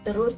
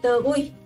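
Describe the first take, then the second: First: The word ends with an s sound. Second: The word ends with an ih sound. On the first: This is the standard form of the word. "Terus jadi teruih" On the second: This is the local dialect form of the word. "Terus jadi teruih"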